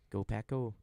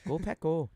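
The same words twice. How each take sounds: First: It is said in a general Midwestern accent. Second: It is said in a stronger Minnesota accent. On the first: "That's my Midwestern" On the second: "That's more Minnesota"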